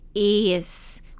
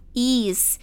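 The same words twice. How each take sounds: First: The vowel sounds closer to a short 'eh'. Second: The vowel sounds like a tense 'ee'. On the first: The speaker calls it right. "a gente pronuncia com E" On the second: The speaker calls it wrong. "muita gente fala is, com i, som de i"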